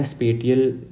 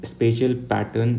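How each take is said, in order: First: स्पेटियल said with a hard t, spay-tee-al; स्पेटियल with a plain t sound in the middle, then he corrects it; स्पेटियल said spay-tee-al before he catches himself; first try at spatial. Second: स्पेशियल said with a sh sound, spay-shee-al; स्पेशियल with sh in the middle, the way he says it himself; corrected spatial. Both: Real, not acted. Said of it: "मेरा जो pronunciation है यही है".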